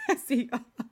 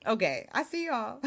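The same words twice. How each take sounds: First: Laughing through the words. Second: Said in the usual way. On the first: Real, not acted. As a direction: say it while breaking into a laugh. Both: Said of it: "repeats it laughing".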